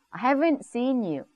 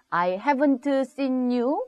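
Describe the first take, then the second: First: Haven't with the T barely heard, slow; soft T in haven't. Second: Haven't said with a clear hard T; the T in haven't fully spoken; wrong t-heavy haven't. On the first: Teacher modelling the right way, haven't with soft T. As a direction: swallow the T in haven't, slowly. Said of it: "T가 잘 안 들려요". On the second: Teacher showing the wrong way, haven't with clear T. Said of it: "아니고". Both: Shown as a demonstration.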